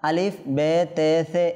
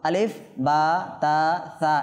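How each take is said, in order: First: The letter names end in an 'e' vowel. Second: The letter names end in an 'a' vowel. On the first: The speaker calls it wrong. "Urdu বাচন ভঙ্গি থেকে বিরত থেকে" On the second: The speaker calls it right. "আরবি বাচন ভঙ্গি অনুযায়ী পড়তে হবে"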